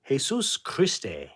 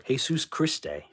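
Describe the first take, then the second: First: Jesus Christe slowly stretched as hey-SOOOS KREE-stay; drawn-out Spanish pronunciation. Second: Jesus Christe said as hey-SOOS KREE-stay; Spanish pronunciation. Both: Shown as a demonstration. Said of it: "that's how they say it in Spain".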